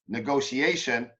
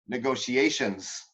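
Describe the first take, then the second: First: The middle consonant is a plain s sound. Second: The middle consonant is an sh sound. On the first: The speaker calls it wrong. "This is you" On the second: The speaker calls it right. "what you're supposed to say"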